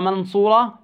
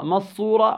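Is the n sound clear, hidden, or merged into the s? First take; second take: clear; merged. First: The n is pronounced fully and clearly. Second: The n merges completely into the following s. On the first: "لا، هيك إظهار" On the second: "وهذا أيضا ماذا؟ إدغام، لا يصح"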